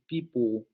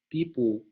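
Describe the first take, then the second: Both takes have the same delivery.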